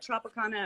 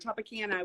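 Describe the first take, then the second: First: It is said with a British pronunciation. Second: It is said with a Texan pronunciation.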